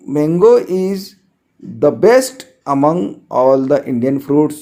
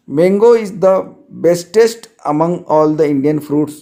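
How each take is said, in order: First: Slow dictation pace, leaning on best; teacher reading the corrected sentence slowly with best; corrected form read out. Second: Slow dictation pace, leaning on bestest; teacher reading the wrong sentence slowly with bestest; wrong form read out. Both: Shown as a demonstration. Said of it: "best कभी bestest नहीं बनेगा".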